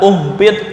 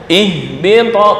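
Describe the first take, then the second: First: The word begins with a u vowel. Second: The word begins with an i vowel. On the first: The speaker calls it wrong. "nggak boleh dibaca uhbit" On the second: The speaker calls it right. "ngulangnya ihbito"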